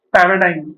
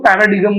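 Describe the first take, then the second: First: पैराडाइम ending in "dime", silent g; पैराडाइम, last part rhymes with "time"; correct pronunciation. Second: पैराडिगम said with a hard g, ending "di-gum"; पैराडिगम as many people misread it, g pronounced; common mispronunciation. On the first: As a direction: say पैराडाइम with a long "eye" and no g. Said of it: "सही pronunciation पैराडाइम ही है". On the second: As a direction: sound out the g in पैराडिगम. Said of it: "बहुत सारे लोग उसको पैराडिगम बोलते हैं". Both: Shown as a demonstration.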